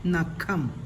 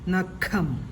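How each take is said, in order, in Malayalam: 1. മധ്യ വ്യഞ്ജനം ശ്വാസം ചേർന്ന kh ശബ്ദമാണ്. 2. മധ്യ വ്യഞ്ജനം ശ്വാസം ചേർന്ന kh ശബ്ദമാണ്.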